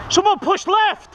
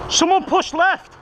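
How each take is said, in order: First: Higher, slower, more urgent shout. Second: High, slow called command; called order. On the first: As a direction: push the order harder. Repeated louder call. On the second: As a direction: call it out across the field. Calling order in combat. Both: Real, not acted.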